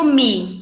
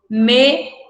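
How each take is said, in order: First: The vowel sounds like an 'i' sound. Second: The vowel is a clear 'e' sound. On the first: The speaker calls it wrong. "E não digo me, né? ... a gente pronuncia como se fosse o i" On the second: The speaker calls it right. "Para eu descrever essa ação de levantar-me, eu estou utilizando o me"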